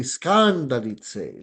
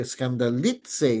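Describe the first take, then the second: First: "skandalitse" stressed on the first syllable, "skan"; slow "skandalitse" with the accent misplaced on "skan"; wrong stress. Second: "skandalitse" with the pitch jumping on "li"; slow "skandalitse", accent placed on "li"; stress on LI. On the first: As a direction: stretch and push "skan" in "skandalitse". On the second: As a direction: hit the "li" in "skandalitse", not "skan". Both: Shown as a demonstration. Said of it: "sa li yung, yung, um, accent".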